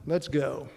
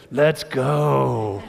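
First: Said in the usual way. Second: Loud, drawn-out rallying cry; kids' hype cheer. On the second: Retold or imitated. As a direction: imitate excited kids cheering to fire up a crowd. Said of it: "as my kids like to say".

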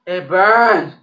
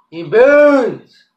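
First: Pained, mouth burning; mouth burning from spicy food. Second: Louder and higher, really hurting; louder pained cry. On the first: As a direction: say it through the sting. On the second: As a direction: cry it out, burning worse. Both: Real, not acted.

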